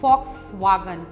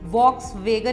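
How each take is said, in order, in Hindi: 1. पहला भाग F से शुरू होता है, दूसरा V से। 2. दोनों भाग V ध्वनि से शुरू होते हैं। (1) "फ विद एफ" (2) "नहीं होता"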